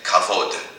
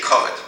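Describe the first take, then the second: First: It is said with a modern Israeli Hebrew pronunciation. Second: It is said with an East European Yiddish pronunciation. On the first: "kavod is honor" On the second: "but we say kavod"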